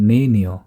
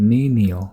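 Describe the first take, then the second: No difference in how they are said.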